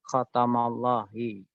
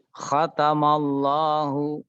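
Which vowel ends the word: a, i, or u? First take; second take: i; u. First: The word ends with the vowel i. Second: The word ends with the vowel u. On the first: The speaker calls it wrong. "tidak mungkin seperti itu" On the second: The speaker calls it right. "membacanya tetap khatamallahu"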